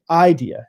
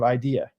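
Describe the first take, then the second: First: The stress is on the first syllable. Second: The stress is on the second syllable. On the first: This is how a Southern speaker says it. "they say idea" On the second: This is how a non-Southern speaker says it. "instead of idea"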